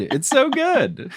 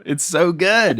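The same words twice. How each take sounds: First: Much higher and slow, playful McGonagall imitation; a hammed-up, drawn-out imitation of McGonagall; mock McGonagall echo. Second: Said in the usual way. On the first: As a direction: echo the praise as a posh Scottish professor. Host echoing the accent playfully.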